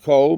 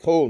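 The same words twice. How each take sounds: First: The vowel is a different, non-O sound. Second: The vowel is an O sound. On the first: The speaker calls it wrong. "not Kol ... Komatz is uh, a different sound" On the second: The speaker calls it right. "the chof is with the cholam means the O sound"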